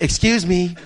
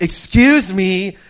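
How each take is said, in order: First: Louder, brief "excuse me"; polite interruption. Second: Much louder, drawn-out, raised "excuse me"; insistent interruption. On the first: Employee interrupting a customer's game, first attempt, firm but contained. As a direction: imitate an employee butting in. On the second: Employee told to wait interrupts the player, loudly insistent. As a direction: stretch it out to demand attention. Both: Retold or imitated.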